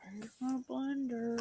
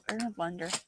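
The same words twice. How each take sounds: First: Slow exasperated ask. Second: Said in the usual way. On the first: Real, not acted. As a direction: stretch it out, exasperated. Repeated slower.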